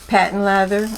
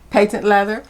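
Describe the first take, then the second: First: Patent is said with an American pronunciation. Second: Patent is said with a British pronunciation.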